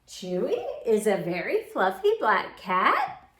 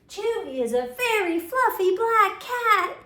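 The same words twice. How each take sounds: First: It is said as a question. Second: It is said with excitement.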